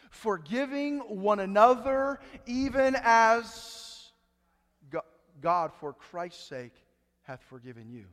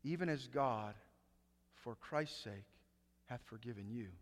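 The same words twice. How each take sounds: First: Slow, drawn-out, weighty reading; stretched-out preacher emphasis; slow emphatic scripture. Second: Hushed awe on the verse; hushed repeat. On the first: Acted. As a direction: lean hard on each word of the verse. Preacher dwelling on key verse. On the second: Shown as a demonstration. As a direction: drop almost to a murmur to let it sink in. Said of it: "Wait a second".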